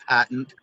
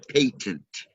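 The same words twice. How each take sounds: First: The first vowel sounds like the one in 'cat'. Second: The first vowel sounds like the one in 'late'. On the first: The speaker calls it wrong. "the word patent is not actually patent" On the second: The speaker calls it right. "The word patent is actually patent, patent, and its opposite is latent"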